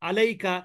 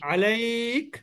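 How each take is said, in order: First: The word ends with a short vowel. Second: The word ends on a bare consonant. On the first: The reading continues past this word. "এমনিতে হবে" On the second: The reading stops on this word. "থেমে গেলে জবরদের পেশ সাকিন হয়"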